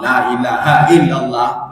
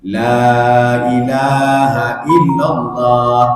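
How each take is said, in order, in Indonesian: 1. Vokal pada kata pertama dibaca pendek. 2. Vokal pada kata pertama dibaca panjang. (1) "La nya pendek" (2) "La ini kan panjang"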